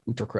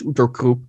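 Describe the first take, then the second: First: The name is said with an English pronunciation. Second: The name is said with a German pronunciation. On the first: "that's how the English would pronounce it" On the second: "it probably should be pronounced Utter Krupp"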